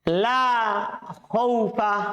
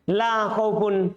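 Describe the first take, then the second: First: The noun ends in a short plain -a. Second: The noun ends in a short -un. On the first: "boleh dibaca begitu" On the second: "boleh dibaca dhammah"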